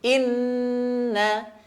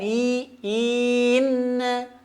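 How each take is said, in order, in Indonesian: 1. Vokal pembuka pendek dan langsung masuk ke kata. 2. Vokal pembuka dipanjangkan sebelum kata. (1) "Tapi langsung" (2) "jangan sampai dipanjangkan"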